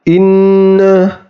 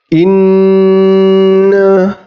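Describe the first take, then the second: First: The nasal sound is held for one beat. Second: The nasal sound is held for three beats. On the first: The speaker calls it wrong. "tidak boleh dibaca satu harokat saja ... itu bacaan yang salah" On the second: The speaker calls it right. "tiga harokat"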